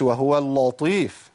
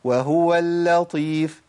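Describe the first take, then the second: First: اللطيف with a thick, emphatic lam; wrong heavy lam. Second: Slow, easy وهو اللطيف with a thin lam; correct light lam. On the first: Teacher demonstrates the wrong thick lam to avoid. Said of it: "ما أقولش". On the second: Teacher models the correct light lam for students. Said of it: "بص أنا أقولها إزاي؟". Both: Shown as a demonstration.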